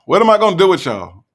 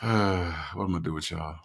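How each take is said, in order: First: High, loud, quick outburst; mock exasperation. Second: Low, soft, sighing question; exasperated sigh. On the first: Host repeating the question to the live chat, loudly exasperated. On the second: Real, not acted. Host to the live chat after a laugh, resigned.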